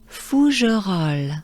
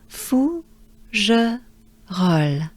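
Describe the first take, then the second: First: The syllables flow together without pauses. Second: Each syllable is said separately with pauses. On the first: "the French way would be or is" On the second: "If we break it down"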